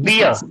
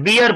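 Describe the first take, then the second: First: The word ends without any R sound. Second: The word ends with an audible R sound. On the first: The speaker calls it right. "but beer" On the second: The speaker calls it wrong. "Don't say beer because R is not spoken at the end. Not beer"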